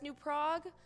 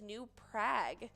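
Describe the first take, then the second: First: The vowel in Prague rhymes with bog. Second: The vowel in Prague rhymes with bag. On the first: The speaker calls it wrong. "that's how the country Prague is pronounced, but that is actually the wrong pronunciation" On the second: The speaker calls it right. "The town name rhymes with bag, not bog"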